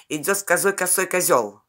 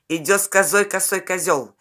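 Both takes have the same delivery.

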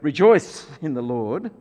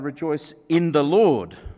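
First: The stress falls on the word rejoice. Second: The stress falls on the word Lord. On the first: The focus is on being joyful itself. The speaker calls it wrong. "we shouldn't say that" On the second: The joy comes from no one other than Jesus. The speaker calls it right. "but rather"

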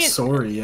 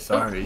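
First: The word is said with a Canadian accent. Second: The word is said with an American accent. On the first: "don't say like sorry" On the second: "You say it the American way"

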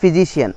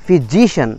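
First: The stress falls away from the syllable before -cian. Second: The stress falls on the syllable before -cian. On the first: The speaker calls it wrong. "not physician" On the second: The speaker calls it right. "এই যে একটা stress পড়লো শিয়ানের আগে ওয়ার্ডটা"

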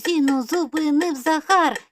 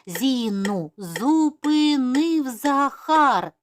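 First: It is spoken at a very fast pace. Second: It is spoken at a moderate, quicker pace. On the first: "І дуже-дуже швидко" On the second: "А зараз вже швидше"

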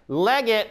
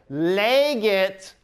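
First: The first vowel is short. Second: The first vowel is long. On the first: Someone is reading. "Legate means so-and-so is reading" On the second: Someone read. "Legate means that person read. ... it's the long E"

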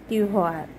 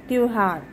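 No difference in how they are said.

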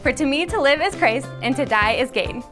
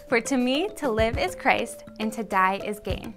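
First: It is said as fast as possible. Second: It is said at a normal pace.

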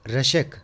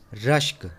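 First: An extra vowel separates the final consonants. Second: The final consonants are joined without a vowel. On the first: The speaker calls it wrong. "ये गलत है" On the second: The speaker calls it right. "सही तलफ़्फ़ुज़ है"

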